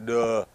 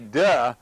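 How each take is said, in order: First: It sounds self-deprecating, admitting confusion. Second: It sounds ridiculing, mocking someone else.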